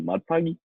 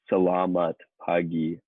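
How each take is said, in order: First: The greeting is clipped, dropping the first syllables. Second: The greeting is said in full, all syllables. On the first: "people just say "mat pagi" to each other" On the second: "which is how I just said it now"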